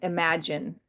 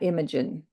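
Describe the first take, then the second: First: The word sounds like the word 'imagine'. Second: The word sounds like the name 'Imogen'. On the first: The speaker calls it right. "they pronounce it imagine" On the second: The speaker calls it wrong. "not Imogen"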